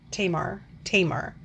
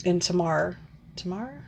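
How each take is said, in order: First: "Tamar" as TAY-mar, settled; alternative pronunciation. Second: "Tamar" as tuh-MAR, then questioning; unsure pronunciation. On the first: Reviewer trying the other name version, "Tamar" as TAY-mar. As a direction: say "Tamar" with a long ay, stressed first. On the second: Reviewer unsure of a character's name, "Tamar" as tuh-MAR. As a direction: try "Tamar" stressed on the second syllable, second time rising. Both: Real, not acted.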